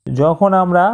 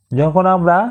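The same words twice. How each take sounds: The two takes are said the same way.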